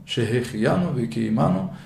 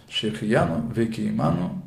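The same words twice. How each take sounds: Both takes have the same delivery.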